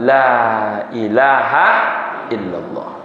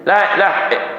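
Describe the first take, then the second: First: Every syllable is said in full. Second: The ending is clipped into a short sound. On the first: The speaker calls it right. "Kan enak kita mengucapkannya" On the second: The speaker calls it wrong. "Memutus ha dari ilaha itu saja salah"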